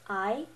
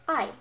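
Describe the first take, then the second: First: The pitch rises like a question. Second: The word is said short and firmly. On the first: "pretend like you're asking a question" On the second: "pretty much just saying a word firmly"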